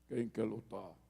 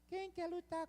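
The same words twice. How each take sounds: First: The voice is deep and heavy. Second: The voice is thin and not deep. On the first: This is how the giant sounded to intimidate. The speaker calls it right. "ele deveria ter uma voz grossa" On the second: This is not how the giant sounded. The speaker calls it wrong. "eu acho que Golias não tinha uma voz assim"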